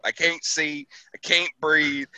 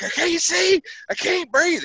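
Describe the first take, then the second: First: Said in the usual way. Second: Mock panic. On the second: Driver in a smoke-filled cab crying out to his sergeant, high mock panic. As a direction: replay the choking panic. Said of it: "And I'm like".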